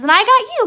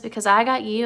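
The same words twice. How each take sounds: First: High, loud, delighted outburst; Lenny excited. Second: Said in the usual way. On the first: Retold or imitated. Lenny answering George's words, high loud excitement. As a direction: burst in like excited Lenny, pitched way up. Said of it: "And Lenny says". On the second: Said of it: "George says".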